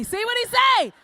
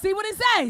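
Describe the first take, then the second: First: Higher and louder repeat, shouted; rising shout. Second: Said in the usual way. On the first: Acted. Comic urging the men to ask a friend, shouted. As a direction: push it up into a yell.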